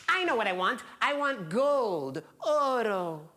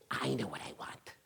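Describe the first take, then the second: First: High, drawn out on the prize; excited, lifted little-old-lady voice; eager old woman. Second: Hushed, near-whispered decision; low-key and secretive, much softer; quiet realization. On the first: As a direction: announce a greedy choice with relish. Old woman excitedly picks again. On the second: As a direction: drop to a soft, knowing near-whisper. Old woman settles on real wish. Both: Acted.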